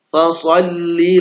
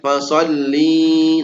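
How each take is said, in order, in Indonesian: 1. Vokal terakhirnya pendek. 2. Vokal terakhirnya dipanjangkan. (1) "Ini perintahnya untuk mudzakkar" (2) "Kalau dipanjangkan nanti perintahnya untuk muannats"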